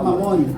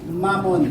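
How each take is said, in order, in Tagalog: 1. Binibigkas ito parang salitang Filipino na mamon. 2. Binibigkas ito bilang salitang Ingles na mammon. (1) "not mamon. Iba yung mamon. Oh, tinapay yun" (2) "the proper pronunciation is mammon"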